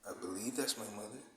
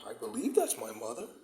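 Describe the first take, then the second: First: It sounds truthful and sincere. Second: It sounds enthusiastic and sarcastic. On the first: "with just, just you know, um truthfulness and and and, and, and honesty and integrity" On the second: "with some enthusiasm and some, you know, sarcasm"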